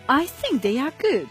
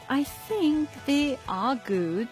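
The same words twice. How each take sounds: First: The voice falls at the end. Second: The voice stays flat at the end. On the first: The speaker is sure and has no doubt. "In the first case, my tone of voice fell at the end of the sentence" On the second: The speaker will add something more. "in the second sentence, the tone of my voice didn't fall. It was kind of flat"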